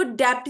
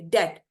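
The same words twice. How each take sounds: First: डेप्ट with the silent b sounded as p; wrong pronunciation. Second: डेट with no b sound at all; silent b. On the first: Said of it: "इसको डेप्ट नहीं पढ़ना". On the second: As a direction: drop the b, say डेट. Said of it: "बी silent है". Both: Shown as a demonstration.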